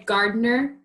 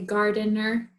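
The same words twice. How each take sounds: First: The word is said with two syllables. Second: The word is said with three syllables. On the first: "I say gardener" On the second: "if you want to say gardener too"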